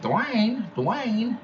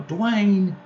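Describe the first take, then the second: First: Squeaky, much higher parrot voice; parrot imitating. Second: Much higher, loud call of a name; mother yelling. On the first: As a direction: mimic the parrot copying mom. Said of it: "the bird would go". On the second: Retold or imitated. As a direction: call your son across the house. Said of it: "would yell, you know".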